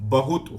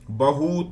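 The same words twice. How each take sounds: First: The word is pronounced just as it is spelled. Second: The word is pronounced in an altered, corrupted form. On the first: "ब खाली ह में छोटे ऊ की मात्रा त खाली बहुत होता है" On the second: "इसका अपभ्रंश बिगड़ते हुए"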